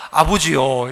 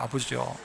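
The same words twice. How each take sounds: First: Stiff, respectful call of father, low; a stiff formal son addressing a strict father. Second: Stiff, low, fading call; a dutiful son's stiff call to his father; formal low address to father. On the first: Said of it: "전부 다 뭐라고 하냐면". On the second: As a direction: say it like a dutiful son. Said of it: "이러는 거예요". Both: Retold or imitated.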